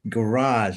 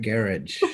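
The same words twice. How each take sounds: First: The word is said in an American accent. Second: The word is said in a British accent. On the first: This is how people at home say it. The speaker calls it right. "no, it's garage" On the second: This is how it was said in England. The speaker calls it wrong. "not garage"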